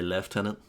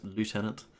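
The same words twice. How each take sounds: First: The word is said the British way. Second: The word is said the American way.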